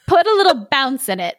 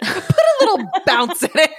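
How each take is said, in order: First: Laughing ogre voice. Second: High, giggling echo; laughing repeat. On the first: Acted. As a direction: demand it with a chuckle. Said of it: "said the ogre". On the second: Retold or imitated.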